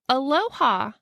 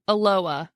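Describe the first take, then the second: First: It is said like the Hawaiian greeting. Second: It is said the local way, unlike the greeting. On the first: The speaker is an outsider to the town. The speaker calls it wrong. "like Hawaii" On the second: The speaker is a local. The speaker calls it right.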